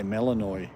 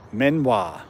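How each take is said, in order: First: "Melanoy" read as spelt, ending in "noy"; own phonetic pronunciation. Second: "Menoir" as men-WAH, pitched high; tentative name pronunciation. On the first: Telling Sandy his own way, "Melanoy" sounded out as spelt. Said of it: "I say Melanoy". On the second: Asking Sandy how it is said, trying "Menoir" as men-wah. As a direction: try out "Menoir" high, ending in a "wah" sound. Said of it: "Is that how you say it". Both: Shown as a demonstration.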